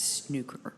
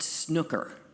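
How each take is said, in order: First: The word is pronounced a non-American way. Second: The word is pronounced the American way. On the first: The speaker calls it right. "it's snooker" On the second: The speaker calls it wrong. "It's not snooker"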